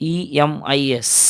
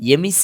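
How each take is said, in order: First: It is spelled out letter by letter. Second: It is said as a single word. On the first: It is treated as an abbreviation. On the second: It is treated as an acronym.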